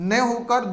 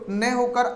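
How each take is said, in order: The two takes are said the same way.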